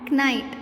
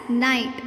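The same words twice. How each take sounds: First: KNIGHT with a hard K before the N; K wrongly sounded. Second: NIGHT beginning directly with N; silent K. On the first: Teacher showing what not to say, KNIGHT with sounded K. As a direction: say KNIGHT as k-night. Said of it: "and not". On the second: Teacher modelling knight for kids, NIGHT with silent K. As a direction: say NIGHT with no K sound at all. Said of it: "pronounced as night and not". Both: Shown as a demonstration.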